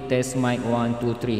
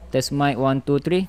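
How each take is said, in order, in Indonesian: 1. Suaranya punya efek gema yang kuat. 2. Suaranya sama sekali tidak ada efek gema. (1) "Ini echo dia sepuluh" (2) "echo dia hilang"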